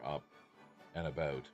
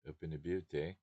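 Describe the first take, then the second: First: It is said in a plain American accent. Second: It is said in a put-on East Coast Canadian accent.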